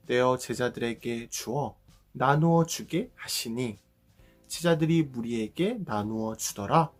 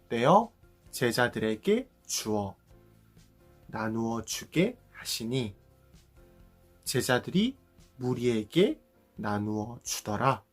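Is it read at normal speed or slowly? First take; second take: normal; slowly. First: It is read at normal speed. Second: It is read slowly.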